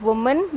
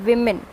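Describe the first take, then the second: First: Woman said slowly as WUH-mun; slow demo of the wrong woman; wrong form, slowly. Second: Women with a short i at the start; correct form. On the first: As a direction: drag out woman with the oo sound. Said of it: "this is not woman". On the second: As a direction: gently model women as WIM-in. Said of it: "this is women". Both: Shown as a demonstration.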